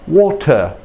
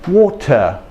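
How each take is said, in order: First: It is said in an English dialect. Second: It is said in an English dialect.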